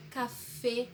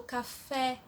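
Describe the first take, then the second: First: CAFÉ ending in a closed E, like "cafê"; Spanish CAFÉ with tight E. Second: CAFÉ with a wide-open final E, as in Portuguese; the wrong, open-E CAFÉ. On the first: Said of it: "eu falo café e eu falo fê". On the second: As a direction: say CAFÉ the Brazilian way, E opened wide. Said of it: "eu não falo café". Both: Shown as a demonstration.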